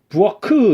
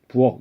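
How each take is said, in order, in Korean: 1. 끝소리 자음에 모음이 붙어서 터져요. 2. 끝소리 자음을 터뜨리지 않고 닫아서 끝내요. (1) "부엌크 이렇게 안 되잖아요" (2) "이렇게 발음되잖아요"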